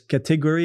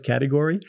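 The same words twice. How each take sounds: First: It is said in a non-American way. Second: It is said in the usual American way. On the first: This is how a friend from abroad says it. "I have a good friend that says category" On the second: This is how Americans expect it to be said. "instead of category"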